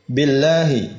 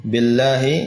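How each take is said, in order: No difference in how they are said.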